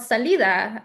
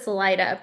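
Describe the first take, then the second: First: It is said with a Spanish pronunciation. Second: It is said with an English pronunciation. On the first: "if you um, pronounce it correctly" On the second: "in English, for whatever reason, it's um, pronounced as"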